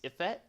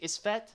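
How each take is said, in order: First: The S sound is left out entirely. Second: The S sound is pronounced before the f. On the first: "maybe the S is silent" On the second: "Would you say Isfet"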